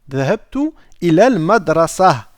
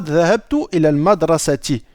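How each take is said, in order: First: The last word ends without a final vowel. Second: The last word ends with a final -ti vowel. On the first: The speaker calls it right. "on ne va pas faire de liaison" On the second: The speaker calls it wrong. "On ne dira pas"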